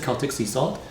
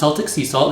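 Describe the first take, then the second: First: Celtic begins with a K sound. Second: Celtic begins with an S sound. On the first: The speaker calls it right. "this is" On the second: The speaker calls it wrong. "this is not"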